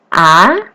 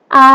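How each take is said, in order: First: The pitch rises upward. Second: The pitch stays high and level. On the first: "Nada yang kedua naik" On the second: "A itu datar. A ditarik"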